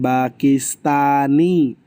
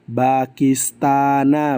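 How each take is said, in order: First: The word ends with an 'i' vowel. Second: The word ends with an 'a' vowel. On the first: The speaker calls it wrong. "bukan Pakistani" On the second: The speaker calls it right. "Bacanya Pakistana"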